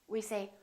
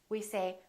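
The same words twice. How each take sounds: No difference in how they are said.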